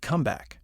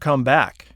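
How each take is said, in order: First: The stress falls on the first word. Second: The stress falls on the second word. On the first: It is used as a noun. "put the stress on the first word" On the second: It is used as a verb. "They tend to be stressed on the second word"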